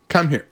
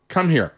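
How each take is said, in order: No difference in how they are said.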